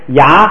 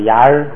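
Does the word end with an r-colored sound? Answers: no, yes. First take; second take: no; yes. First: The word ends without an r-colored sound. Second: The word ends with an r-colored sound. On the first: This is the ordinary everyday reading. "一般的呢，你就读牙" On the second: This is the reading used when reading texts aloud. "读书的时候...就牙儿麻儿"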